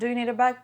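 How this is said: It is said coldly and curtly.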